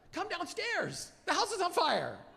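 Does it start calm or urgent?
urgent. It is urgent and excited from the start.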